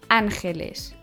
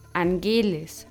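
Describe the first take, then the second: First: The stress is on the first syllable. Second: The stress is on the second syllable. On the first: The speaker calls it right. "Diese werden auf der ersten Silbe betont" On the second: The speaker calls it wrong. "und nicht angeles"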